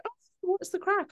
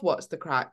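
First: Much higher mock greeting voice; high-pitched put-on hello; imitating someone's greeting. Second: Said in the usual way. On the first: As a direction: mimic a chirpy greeter, pitched right up. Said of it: "When someone's like".

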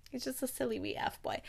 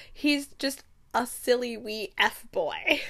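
First: Much softer echo of a quote; savoured quiet repeat. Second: Slow, full-voiced put-down; slow dismissive quote. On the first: Retold or imitated. Podcaster savouring a Scottish phrase, murmured quietly. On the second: Thane dismissing a rival to Reagan, slow and full-voiced. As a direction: draw it out as a dismissal.

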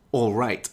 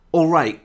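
First: Said in the usual way. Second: "All right" reduced to its weak form; "All right" run together as a weak form. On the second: Shown as a demonstration. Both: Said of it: "is the weak form of the word".

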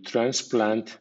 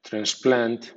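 First: Transplant as a noun, TRANS-plant; strong stress on TRANS in transplant. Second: Transplant as a verb, trans-PLANT; verb stress. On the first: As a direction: hit the first syllable of transplant. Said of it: "transplant como sustantivo". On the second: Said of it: "como verbo". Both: Shown as a demonstration.

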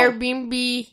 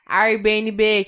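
First: "Airbnb" run together as air-bee-en-bee; English-style pronunciation. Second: "Airbnb" drawn out as a-ir-bê-ene-bê; literal Portuguese reading. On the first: Friend corrects with English-style "Airbnb", air-bee-en-bee. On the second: Friend mocks reading "Airbnb" letter by letter in Portuguese, slowly. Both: Shown as a demonstration. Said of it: "Você não fala Airbnb".

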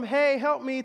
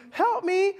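First: Said in the usual way. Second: Much higher, louder cry for help; higher plea. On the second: Retold or imitated. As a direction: plead urgently. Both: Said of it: "So I go from".

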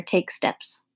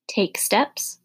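First: Said in the usual way. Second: A touch of worry, STEPS lifting into a question; quavering. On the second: A narrator's reading. Mother questions the plan to take steps, lightly quavering. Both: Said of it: "quavered Miss Phillips' voice".

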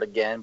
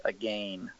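First: Said in the usual way. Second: "again" said as a-GAIN, rhyming with slain; rhyming pronunciation. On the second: Shown as a demonstration. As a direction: draw out "again" with a long ay sound. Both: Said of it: "but you say it, like".

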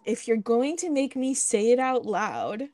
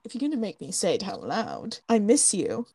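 First: Measured, spelled-out quote; slow deliberate quote. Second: Offhand, lower-pitched imitation of a man; flippant. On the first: Retold or imitated. Host quoting Colin's line to her friend, slowly and deliberately. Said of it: "And then he says". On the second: Host imitating Colin admitting he misses her, flippant. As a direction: toss it off casually in a lower voice. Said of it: "he says it all, like, flippant".

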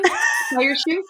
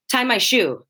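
First: "Tie your shoe?" high, slow and questioning; asked as a question. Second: "Tie my shoe" as a demand, falling at the end; statement, no question. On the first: Acted. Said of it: "Is there a question here?". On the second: Retold or imitated. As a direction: say "Tie my shoe" as a plain order. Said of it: "That was such a conclusion".

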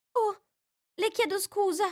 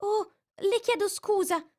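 First: Much higher, startled apology; alarmed exclamation. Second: Much higher, quick apology; hurried exclamation. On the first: Alice apologises as the mouse trembles. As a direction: catch yourself in alarm. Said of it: "esclamò Alice". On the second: Alice hastily apologises to the frightened mouse. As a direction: blurt out the apology. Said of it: "si affrettò a esclamare Alice". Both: A narrator's reading.

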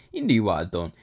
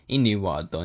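First: "He" leads, stressed above the rest. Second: "knew" stressed, "He" left light. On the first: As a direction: lean on "He", the rest falls away. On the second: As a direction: hit "knew", keep "He" unstressed. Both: Real, not acted.

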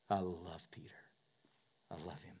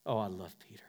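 First: Whisper. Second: Said in the usual way. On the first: Shown as a demonstration.

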